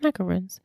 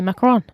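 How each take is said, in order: First: It is said with an English-style pronunciation. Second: It is said with a French-style pronunciation. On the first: The speaker calls it wrong. "so she says macaroons" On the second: The speaker calls it right. "if you really were saying it in a Parisian way"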